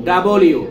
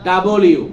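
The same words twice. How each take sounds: The two takes are said the same way.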